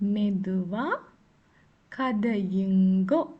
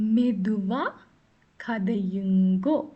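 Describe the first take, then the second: The two takes are said the same way.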